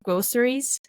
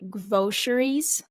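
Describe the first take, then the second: First: The middle consonant is an s sound. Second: The middle consonant is a sh sound.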